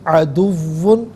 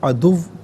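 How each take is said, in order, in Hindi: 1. शब्द के आखिर में नासिक 'un' की आवाज़ है। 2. शब्द 'un' के बिना रुक जाता है।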